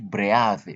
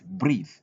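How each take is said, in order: First: The vowel is not a long ee sound. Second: The vowel is a long ee sound. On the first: The speaker calls it wrong. "We don't say breathe" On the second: The speaker calls it right. "but breathe"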